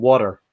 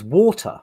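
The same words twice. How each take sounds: First: "water" with an American tapped t; Americanised WATER. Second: Said in the usual way. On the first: Retold or imitated. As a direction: imitate a Brit saying "water" as "wah-der". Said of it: "It's easier to say it like that". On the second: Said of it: "What the f-, what was that?".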